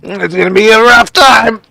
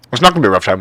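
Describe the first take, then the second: First: High, sing-song mock warning. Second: Said in the usual way. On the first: Streamer teasing a viewer about their factory, high mock voice. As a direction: squeak it out like a teasing doom prophecy.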